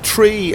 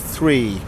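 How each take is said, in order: First: It begins with a plain t sound. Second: It begins with a th sound. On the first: "it's tree instead of three" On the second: "instead of three"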